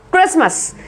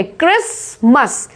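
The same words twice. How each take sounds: First: Said in the usual way. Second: क्रिसमस split slowly, "kris... mas"; silent t. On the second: Shown as a demonstration. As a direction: pause inside क्रिसमस, no t. (क्रिसमस को धीरे "क्रिस-मस" तोड़कर) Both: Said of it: "इसमें टी silent है".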